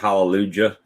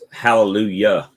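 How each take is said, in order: First: The word is said to sound like Fallujah. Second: The word is said in its usual way. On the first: The speaker calls it wrong. "You made it sound like it was Fallujah" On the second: The speaker calls it right. "That's hallelujah"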